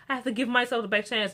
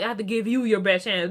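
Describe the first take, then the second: First: "myself" picked out as the key word; stress on myself. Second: "you" picked out as the key word; stress on you. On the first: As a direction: lean on "myself" to show the selfishness. Mimics Cora's selfish version. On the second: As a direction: lean on "you" to contrast it with self. Contrasts parent's words with Cora's. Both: Retold or imitated.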